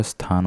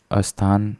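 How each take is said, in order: First: स्थान said as "sthaan"; no vowel before स्थान; correct s start. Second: अस्थान said as "asthaan"; vowel before the st in अस्थान; wrong added vowel. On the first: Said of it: "स्थान होता है". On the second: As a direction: open अस्थान with an extra a. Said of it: "नहीं होता". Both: Shown as a demonstration.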